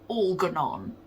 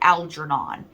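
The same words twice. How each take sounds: First: The name is said the way a British reader did. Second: The name is said the usual American way. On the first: This is how the British reader said it. "This person said Algernon" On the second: This is how the speaker's own circle says it. "we say Algernon"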